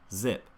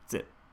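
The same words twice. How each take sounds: First: The first sound is a voiced, buzzing z. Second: The first sound is a voiceless, hissing s. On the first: The speaker calls it right. "cut that air supply in half, and then you add your voice" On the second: The speaker calls it wrong. "as opposed to"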